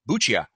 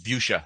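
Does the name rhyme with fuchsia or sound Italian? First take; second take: Italian; fuchsia. First: The name is pronounced the Italian way. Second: The name rhymes with the word fuchsia. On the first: The speaker calls it wrong. "My natural inclination is to pronounce it like an Italian" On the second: The speaker calls it right. "no, it's Buccia. Think of the color fuchsia"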